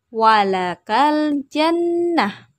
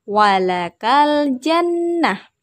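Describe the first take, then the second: No difference in how they are said.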